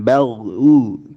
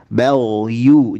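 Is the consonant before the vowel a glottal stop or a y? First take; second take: glottal stop; y sound. First: A glottal stop comes before the vowel. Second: A clear y sound comes before the vowel. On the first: The speaker calls it wrong. "jangan bal u kayak hamzah" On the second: The speaker calls it right.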